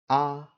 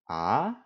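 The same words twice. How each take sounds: First: The pitch stays high and level. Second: The pitch rises from mid to high. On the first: "first tone, which is high and flat" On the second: "Second tone, which is a mid to high rising"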